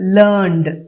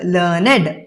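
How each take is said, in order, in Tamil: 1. இந்த வார்த்தை ஒரு அசையில் சொல்லப்படுகிறது. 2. இந்த வார்த்தை இரண்டு அசைகளில் சொல்லப்படுகிறது. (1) "learnோட past tense-ஆ L E A R N E Dன்னு வரும்போது இதோடைய உச்சரிப்பு learned" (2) "இந்த வார்த்தை அட்ஜெக்டிவா வரும்போது இதுக்கு உச்சரிப்பு learned"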